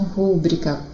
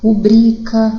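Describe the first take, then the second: First: The stress is on the first syllable. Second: The stress is on the second syllable. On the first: The speaker calls it wrong. "não é proparoxítona" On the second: The speaker calls it right. "É paroxítona"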